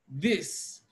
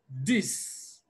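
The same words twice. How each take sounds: First: It begins with a voiced th sound. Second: It begins with a d sound. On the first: The speaker calls it right. "watch what happens when I produce the sound this" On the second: The speaker calls it wrong. "articulating the sound of D instead of this voiced dental fricative"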